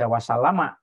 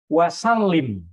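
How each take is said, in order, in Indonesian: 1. Kata itu berakhir dengan -ama panjang. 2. Kata itu berakhir dengan -im pendek. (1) "jangan dibaca wasalama" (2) "karena fil amar"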